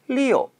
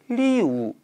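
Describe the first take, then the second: First: The vowel ends with a slight 'oh' sound. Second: The vowel ends in a plain 'oo' sound. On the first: The speaker calls it right. "리오 라고 살짝 오발음 넣어서" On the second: The speaker calls it wrong. "리우 라고 발음하는 것이 아니라"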